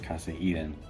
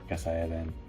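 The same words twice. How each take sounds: First: It is said with an English accent. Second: It is said with a Spanish accent. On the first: Locals do not recognize the name. The speaker calls it wrong. "no one understands it when I say Casa Eden" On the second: Locals recognize the name. The speaker calls it right. "you have to say our hotel name with a Spanish accent"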